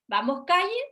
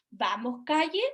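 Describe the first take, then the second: First: "Vamos, calle" with pitch rising on calle, like asking; said as a question. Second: Said in the usual way. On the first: Shown as a demonstration. Speech therapist showing a child's two-word question, rising tune. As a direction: lift "calle" up at the end as a question. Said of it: "como una interrogación". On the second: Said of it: "si el niño dice".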